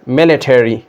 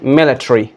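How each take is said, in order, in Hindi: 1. American उच्चारण, अंत पूरा 'terry' जैसा बोला गया। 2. ब्रिटिश उच्चारण, अंत 'tree' जैसा दबा हुआ। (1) "और अमेरिकन वाले बोलते हैं मिलिटरी" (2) "मिलिट्री ब्रिटिश वाले कैसे बोलते हैं?"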